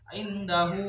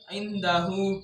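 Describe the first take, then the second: First: The final vowel is drawn out long. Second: The final vowel is short and plain. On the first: "ini dibaca panjang" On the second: "indahu biasa"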